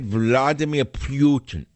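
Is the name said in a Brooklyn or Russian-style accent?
Russian. The name is said with a Russian-style accent. This is how the quoted speaker said it. "He said it that way"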